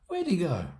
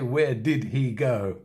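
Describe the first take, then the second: First: The auxiliary is reduced and joined to where. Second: The auxiliary is said fully as a separate word. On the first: The speaker calls it right. "In natural, normal, fast, spoken English" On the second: The speaker calls it wrong. "We don't say where did he go"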